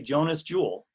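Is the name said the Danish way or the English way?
English. The name is said the English way.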